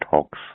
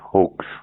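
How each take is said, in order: First: The vowel is an open 'aw' sound. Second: The vowel is a long 'oh' sound. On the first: The speaker calls it wrong. "not hawks" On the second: The speaker calls it right. "you pro- pronounce it as hoax"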